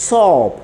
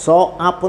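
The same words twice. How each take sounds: First: സോപ്പ് as one syllable, high falling O; only O sounded. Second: സോ ആപ്പ് broken into two syllables, so-aap; wrong split pronunciation. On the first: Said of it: "ഓ മാത്രം ഉച്ചരിക്കാനുള്ള". (സോപ്പ് ഓ മാത്രം ഉച്ചരിച്ച്) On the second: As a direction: sound both O and A separately in സോ ആപ്പ്. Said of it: "സോ ആപ്പ് എന്ന് പറയുന്നില്ല". (സോ ആപ്പ് എന്ന് പിരിച്ച് ഉച്ചാരണം) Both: Shown as a demonstration.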